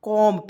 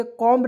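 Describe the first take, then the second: First: कॉम्ब read as "kom", B dropped; silent B. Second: कॉम्ब with the final B sounded; wrong pronunciation, B sounded. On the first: Teacher gives learners the correct reading, कॉम्ब with silent B. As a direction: say कॉम्ब ending on M, no B. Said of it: "इसको क्या पढ़ेंगे दोस्तों". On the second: Teacher shows learners the reading to avoid, कॉम्ब with B sounded. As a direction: say कॉम्ब with an audible B at the end. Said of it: "कॉम्ब नहीं पढ़ेंगे". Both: Shown as a demonstration.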